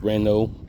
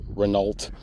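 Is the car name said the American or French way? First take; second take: French; American. First: It is said with a French pronunciation. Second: It is said with an American pronunciation. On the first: "but it's Renault, French" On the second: "if you're American"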